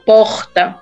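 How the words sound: Said in a northeastern accent with a drawn-out R. "normalmente no Nordeste, eles falam porta. Porta mais puxado"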